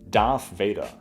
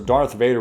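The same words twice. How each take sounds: First: The 'th' is said as an F. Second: The 'th' is said as a normal TH.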